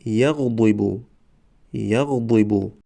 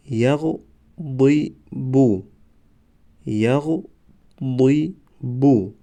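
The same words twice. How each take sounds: First: Said in the usual way. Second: Slow, syllables held and separated; slow syllable reading. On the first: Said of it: "به مثل خوانش سوم و چهارم". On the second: Shown as a demonstration. Teacher models first readings for learners, slow syllable by syllable. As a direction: sound it out for learners, pausing between syllables. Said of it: "بار یکم و دویم آهسته".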